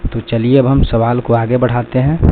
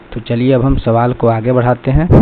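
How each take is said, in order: The two takes are said the same way.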